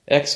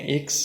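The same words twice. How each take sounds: First: X said as English "eks"; English letter name. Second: ایکس said as Italian "iks"; Italian letter name. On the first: Naming the letter X for Italian learners, English pronunciation. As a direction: open "eks" for ایکس. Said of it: "ایکس کو کہتے ہیں". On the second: Teacher gives Italian name for X, Italian pronunciation. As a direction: start ایکس with an "ee" sound, "iks". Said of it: "کو کہتے ہیں ایکس". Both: Shown as a demonstration.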